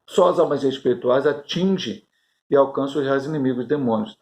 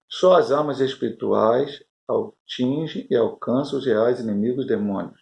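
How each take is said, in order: First: It is read at a normal pace. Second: It is read very slowly.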